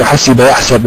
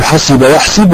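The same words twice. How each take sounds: First: يحسب with fatḥa on the sīn, "yaḥsab"; fatḥa in present. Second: يحسب with kasra on the sīn, "yaḥsib"; kasra in both. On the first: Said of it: "باب علم في بعض الأوقات". (يحسب بفتح السين) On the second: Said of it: "يأتي من باب". (يحسب بكسر السين) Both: Shown as a demonstration.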